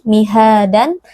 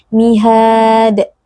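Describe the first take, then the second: First: It ends with an added n sound. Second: It ends abruptly on the d sound. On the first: "tidak dibaca dengan tanwin" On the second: "tidak dibaca dengan sukun"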